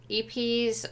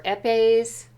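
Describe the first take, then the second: First: "epes" tried with a long ee at the start; unsure pronunciation. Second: "epes" tried with a short e, then ay; alternative pronunciation. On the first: Reviewer guessing at a French word, "epes" said the anglicized EE-peez way. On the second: Reviewer offering another guess at a French word, "epes" said as eh-PAYZ. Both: Shown as a demonstration. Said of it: "I don't know if that's pronounced".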